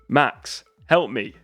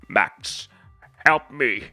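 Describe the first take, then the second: First: It is said in the speaker's ordinary voice. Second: It is said in a put-on character voice. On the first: "I'll do it in the, my my voice first" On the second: "Now I'm going to go for the Grinch voice"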